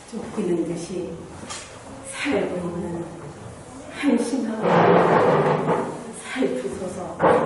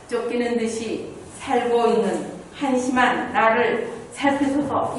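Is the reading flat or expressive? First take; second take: expressive; flat. First: It is read in clear chunks with feeling. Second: It is read flatly, without feeling.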